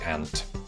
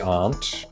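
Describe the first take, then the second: First: The vowel sounds like 'ant', northern style. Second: The vowel is a long 'ah' sound.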